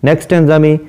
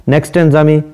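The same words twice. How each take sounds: The two takes are said the same way.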